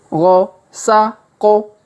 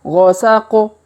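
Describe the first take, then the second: First: The letters are read slowly and separately. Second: The letters are read quickly together. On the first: "kita baca pelan-pelan ya" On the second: "Kalau dipercepat"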